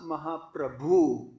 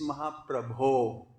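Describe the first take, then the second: First: The word ends with an 'oo' vowel. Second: The word ends with an 'oh' vowel. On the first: The speaker calls it wrong. "this is not Mahaprabhu" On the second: The speaker calls it right. "it's Mahaprabho"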